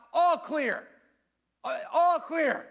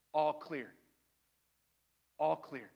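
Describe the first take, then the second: First: High, loud call to the next room; raised, announcing shout; yelled all-clear. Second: Low, soft all-clear; hushed, calm and lower; gentle reassurance. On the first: Retold or imitated. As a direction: call it out like a SWAT officer. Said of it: "I yell out". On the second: Acted. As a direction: say it quietly as God comforting someone. God gently says all clear.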